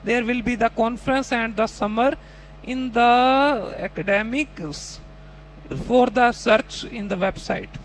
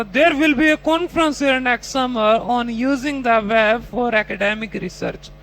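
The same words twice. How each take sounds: First: Slow, broken, halting mock answer with pauses; imitating a struggling student. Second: Slow, careful reading of the long test sentence; slow model reading. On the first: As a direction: stumble through the sentence in pieces. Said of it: "तो आप अब अपने वाले". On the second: Shown as a demonstration. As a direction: read the prompt slowly and clearly. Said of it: "अगला question आता".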